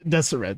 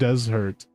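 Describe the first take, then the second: First: The name is said as 'Deseret' with three syllables. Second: The name is said like the word 'desert'. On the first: The speaker calls it right. "Deseret, sorry, not Desert" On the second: The speaker calls it wrong. "not Desert"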